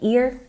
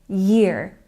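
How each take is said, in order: First: The word begins directly with a vowel sound. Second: The word begins with a clear Y sound. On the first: The speaker calls it wrong. "Some people drop the Y sound and it sounds like ear" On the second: The speaker calls it right. "Make sure that you're really making the Y sound"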